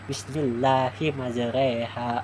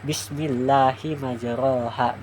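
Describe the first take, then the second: First: The vowel after majr sounds like e. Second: The vowel after majr sounds like o. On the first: The speaker calls it right. "Jadi bacaannya seperti ini" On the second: The speaker calls it wrong. "Bukan seperti ini, bukan"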